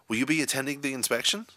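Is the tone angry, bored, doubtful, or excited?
excited. The question is asked in an excited tone. "in an excited tone of voice"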